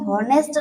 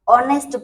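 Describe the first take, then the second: First: The word starts with an h sound. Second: The word starts directly with a vowel. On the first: The speaker calls it wrong. "यहाँ पे हम हॉनेस्ट नहीं पढ़ेंगे" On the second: The speaker calls it right. "ऑनेस्ट पढ़ेंगे"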